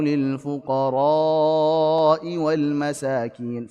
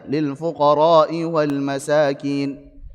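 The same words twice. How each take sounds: First: The vowel in fuqara is held long. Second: The vowel in fuqara is held only briefly. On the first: The speaker calls it right. "Famaddaha. Beliau memanjangkan fuqara'" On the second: The speaker calls it wrong. "tanpa memanjangkannya ... Dia hanya dua harakat saja"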